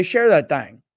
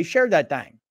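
First: "thing" с ровным «айнг», без протяжки; thing сказано как обычно, коротко; plain thing. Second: "thang" с растянутым носовым «æ̃ŋ», как южный протяжный говор; share that thang. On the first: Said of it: "let me hear you say it naturally". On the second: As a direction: thang сказано через a, в нос и протяжно. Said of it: "so I say". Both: Shown as a demonstration.

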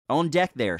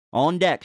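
First: Shouted order. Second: Captain's call, loud and high; shouted order. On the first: Captain hailing the crew on deck, shouting. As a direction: call up to the lookout. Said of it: "shouted Captain Harper". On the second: Captain calling up to the deck, shouting. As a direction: bark it up to the deck. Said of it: "shouted the captain". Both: A narrator's reading.

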